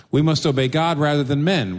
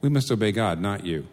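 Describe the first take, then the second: First: Louder and higher, a defiant proclamation; bold declaration. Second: Calm. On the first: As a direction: declare it boldly before the council. Apostles defy the council. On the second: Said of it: "they very calmly say". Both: Retold or imitated.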